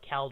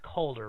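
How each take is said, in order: First: The first vowel sounds like the one in 'pal'. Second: The first vowel sounds like the one in 'all'. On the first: The speaker calls it wrong. "I get it wrong and I call it Calder" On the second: The speaker calls it right. "It's Calder, right?"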